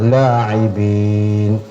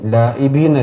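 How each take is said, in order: First: The middle consonant is a throaty ain sound. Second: The middle consonant is a plain glottal stop. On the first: The speaker calls it right. "ലാഇബീൻ ഐനാണ്" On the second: The speaker calls it wrong. "ലാഇബീൻ അല്ല"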